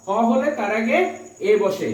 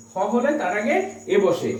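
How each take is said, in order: Both takes have the same delivery.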